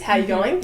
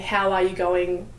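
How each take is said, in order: First: The phrase is said very quickly. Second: The phrase is said slowly. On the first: "it's a very fast phrase" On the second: "slowing it down"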